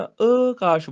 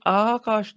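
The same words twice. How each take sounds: First: ਆਕਾਸ਼ with a short opening "a"; correct pronunciation demo. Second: ਆਕਾਸ਼ with a long opening "aa"; wrong pronunciation demo. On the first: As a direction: say ਆਕਾਸ਼ as "akaash", short first vowel. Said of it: "ਆਕਾਸ਼ ਬੋਲਣਾ ਹੈ". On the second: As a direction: say ਆਕਾਸ਼ as "aakaash", long first vowel. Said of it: "ਇਹਨੂੰ ਆਕਾਸ਼ ਨਹੀਂ ਬੋਲਣਾ". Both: Shown as a demonstration.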